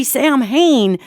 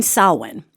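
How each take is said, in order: First: "Sam Hain" as two English words, Sam and Hain; mispronounced Samhain. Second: "Samhain" said as SOW-in; Gaelic pronunciation. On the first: Teacher mimicking people's mistake, "Sam Hain" said as written. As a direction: say "Sam Hain" just as spelled, drawn out. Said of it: "if you hear people talking about". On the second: Teacher correcting the name, "Samhain" pronounced SOW-in. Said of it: "they mean Samhain". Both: Shown as a demonstration.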